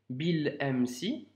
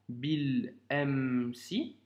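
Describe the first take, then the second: First: It is read at a normal speed. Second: It is read more slowly.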